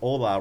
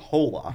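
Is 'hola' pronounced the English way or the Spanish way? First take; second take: Spanish; English. First: It is pronounced with a Spanish pronunciation. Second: It is pronounced with an English pronunciation. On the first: The speaker calls it right. "you're still supposed to pronounce it in the Spanish way. That's why you say hola" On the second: The speaker calls it wrong. "rather than saying hola"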